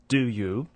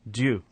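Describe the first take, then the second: First: Both words are said separately and fully. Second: The words merge into one syllable, due.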